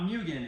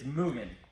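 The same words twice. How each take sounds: First: The first syllable sounds like 'myoo'. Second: The first syllable sounds like 'moo'. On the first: The speaker calls it wrong. "not Mugen" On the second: The speaker calls it right. "It's it's Mugen. think of it as two O's"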